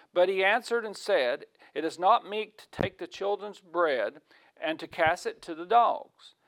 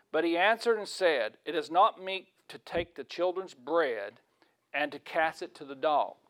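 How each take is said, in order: The two takes are said the same way.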